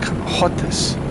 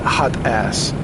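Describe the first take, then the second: First: The second syllable is a reduced 'is' sound. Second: The second syllable is a full 'ass' sound. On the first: The speaker calls it right. "like hotis" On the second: The speaker calls it wrong. "not hot ass"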